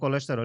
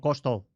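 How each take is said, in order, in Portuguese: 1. Todas as vogais da palavra são pronunciadas completamente. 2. As vogais do meio são omitidas, encurtando a palavra. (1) "nós pronunciamos todos" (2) "eles não falam as vogais"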